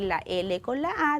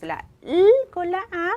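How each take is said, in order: First: The L is said as its letter name. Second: The L is said as its bare sound. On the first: The speaker calls it wrong. "en vez de decir" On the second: The speaker calls it right. "se recomienda siempre utilizar el sonido de la letra"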